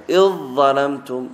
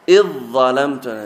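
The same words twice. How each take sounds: Both takes have the same delivery.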